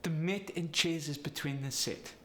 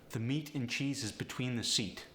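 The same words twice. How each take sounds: First: Polish accent, long E becoming short I; higher-pitched Polish accent. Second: Said in the usual way. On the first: Shown as a demonstration. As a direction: Polish accent with clipped E vowels. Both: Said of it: "The E sound goes to the I sound".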